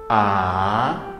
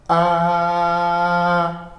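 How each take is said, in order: First: The pitch starts mid and rises upward. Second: The pitch stays high and level throughout. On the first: "Começamos na média e a tendência é de subir" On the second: "O primeiro tom é com a voz alta e contínua"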